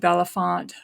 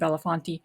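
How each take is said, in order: First: The name ends on the consonant t. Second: The name ends with an extra vowel syllable. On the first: "It could be [name]" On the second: "I'm pronouncing it [name]"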